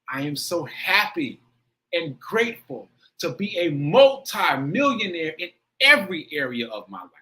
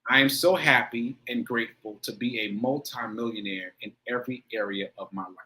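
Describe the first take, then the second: First: It is said with strong heartfelt emotion. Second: It is recited flatly, without emotion.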